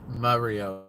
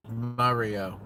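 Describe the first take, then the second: No difference in how they are said.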